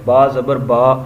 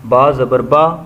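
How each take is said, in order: The two takes are said the same way.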